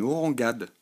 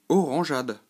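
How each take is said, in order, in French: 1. Le g est dur, comme le g dans go. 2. Le g est doux, comme le s dans measure. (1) "Sans le E, ... ça donnerait une orangade" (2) "si je veux maintenant que ça fasse ja, il faut alors y glisser un E"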